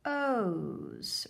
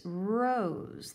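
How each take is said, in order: First: R-ose split at onset; sounded out. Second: Said in the usual way. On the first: Shown as a demonstration. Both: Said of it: "Help me read".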